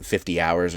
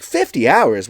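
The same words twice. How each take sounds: First: Said in the usual way. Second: High, loud incredulous echo; acted impressed disbelief; amazed. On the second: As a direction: repeat it back in astonishment. Gremlin amazed at fifty hours.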